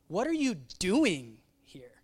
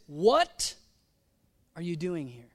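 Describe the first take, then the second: First: The word doing carries the emphasis. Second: The word what carries the emphasis. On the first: Questioning whether this accomplishes anything. "Like is this accomplishing?" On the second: Asking what exactly is going on here. "What? What?"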